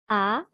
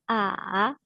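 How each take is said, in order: First: The pitch rises from mid to high. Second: The pitch falls low, then rises.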